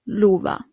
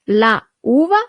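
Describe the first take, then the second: First: The article's vowel is dropped and linked. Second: The article's vowel is pronounced separately. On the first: The speaker calls it right. "you delete the a" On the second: The speaker calls it wrong. "The article would have been is actually la"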